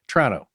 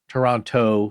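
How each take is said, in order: First: The syllables are squeezed together into a shorter word. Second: All three syllables are said clearly and separately. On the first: The speaker calls it right. "you gotta mash it together" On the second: The speaker calls it wrong. "you don't say"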